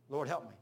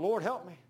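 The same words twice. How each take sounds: First: Said in the usual way. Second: Loud pleading cry to the Lord; desperate cry. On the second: Retold or imitated. Pinned under the bus, crying out to the Lord loudly. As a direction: call out to God as the bus crushes you.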